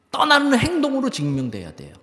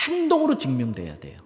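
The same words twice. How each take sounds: First: 떠나는 pitched high and punched, then falling; stress on 떠나는. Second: Said in the usual way. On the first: Real, not acted. Preacher drives home his point to the congregation, stress on 떠나는. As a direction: hammer 떠나는 at a raised pitch.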